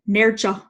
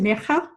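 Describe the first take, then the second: First: The middle consonant sounds like English 'j'. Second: The middle consonant sounds like a throaty 'h'. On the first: The speaker calls it wrong. "as I've heard quite a lot" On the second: The speaker calls it right. "You're going to Nerja"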